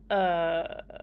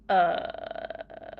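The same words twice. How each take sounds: First: The uh sounds doubtful and questioning. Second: The uh sounds exasperated and disapproving. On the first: The speaker doubts what was said. "Are you sure?" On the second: The speaker finds the other person's behavior strange. "What's wrong with you?"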